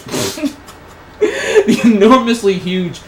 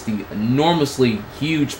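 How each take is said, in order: First: High, loud, slowed by laughter; cracking up. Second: Said in the usual way. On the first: Real, not acted. Reader losing it at a lewd fan fiction line, cracking up. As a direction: try to read on through helpless laughter.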